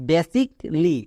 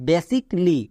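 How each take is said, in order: No difference in how they are said.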